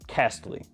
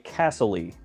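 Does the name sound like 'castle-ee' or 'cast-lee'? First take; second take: cast-lee; castle-ee. First: It is said as cast plus lee. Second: It is said like the word castle plus ee. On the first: The speaker calls it right. "I imagine, is the correct pronunciation" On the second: The speaker calls it wrong. "as I like to stupidly say, Castle-y, as in it looks like a castle"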